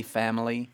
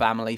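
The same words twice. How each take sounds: First: "family" with a flatter English A. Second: "family" with a raised American A. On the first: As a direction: say "family" with a short, flat A. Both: Shown as a demonstration. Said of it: "It's a bit more flat".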